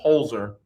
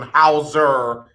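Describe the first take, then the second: First: The name is said with an L sound. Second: The name is said without an L sound. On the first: The speaker calls it right. "there's an L Z in there" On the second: The speaker calls it wrong. "I'm putting my southern slang on it"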